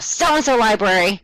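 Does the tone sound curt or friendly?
curt. It sounds curt and unapproachable.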